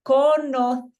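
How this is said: The soft C sounds like th. This is how it sounds in Spain.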